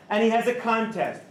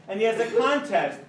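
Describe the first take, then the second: No difference in how they are said.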